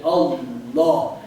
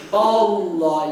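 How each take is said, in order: First: Slow, "Allah" with a deep heavy tafkhim; heavy hollow Allah. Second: "Allah" with a thin, light l, slow; wrong thin Allah. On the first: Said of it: "made hollow and heavy". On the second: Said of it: "You don't say Allah". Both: Shown as a demonstration.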